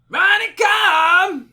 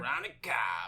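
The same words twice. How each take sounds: First: The name is yelled loudly with energy. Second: The name is said at normal, quiet volume. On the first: The speaker calls it right. "You gotta yell it, man" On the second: The speaker calls it wrong. "No, no, no, no"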